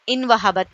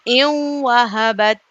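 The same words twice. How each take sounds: First: The n is said clearly before the w. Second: The n merges nasally into the w. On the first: The speaker calls it wrong. "इन वहबत नहीं" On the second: The speaker calls it right. "हाँ"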